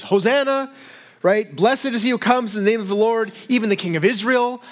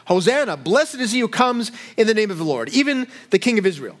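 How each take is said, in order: First: High, lifted hail of a cheering crowd; crowd cry. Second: Said in the usual way. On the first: Retold or imitated. Preacher voicing the crowd greeting Jesus, joyful cry. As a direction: call it out like the welcoming crowd. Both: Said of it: "crying out".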